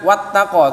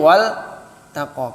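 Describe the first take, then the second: First: The L merges into a doubled T sound. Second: The L is pronounced clearly before the T. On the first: The speaker calls it wrong. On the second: The speaker calls it right.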